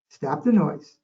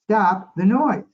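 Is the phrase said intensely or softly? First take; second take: softly; intensely. First: It is said softly and gently. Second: It is said firmly with strong intensity. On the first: "I softly and gently said" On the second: "with a little more intensity in my voice"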